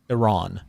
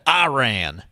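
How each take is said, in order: First: The word is said in a standard way. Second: The word is said in a rural hillbilly style. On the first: The speaker calls it right. "is the proper pronunciation of the country" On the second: The speaker calls it wrong. "calling it Iran, as my hillbilly was coming out"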